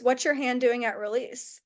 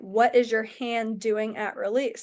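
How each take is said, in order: First: Said in the usual way. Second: "What is your hand doing at release?" slowed, word by word; insistent repeated question. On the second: Retold or imitated.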